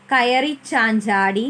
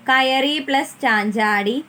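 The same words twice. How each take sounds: First: കയറി ചാഞ്ചാടി run together slowly as one joined phrase; joined words, slower. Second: കയറി and ചാഞ്ചാടി said as two separate words with a break; words kept apart. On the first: Teacher showing children the joined form, slow and careful. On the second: Teacher showing children the two words before joining, said separately. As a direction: split കയറി from ചാഞ്ചാടി clearly. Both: Shown as a demonstration.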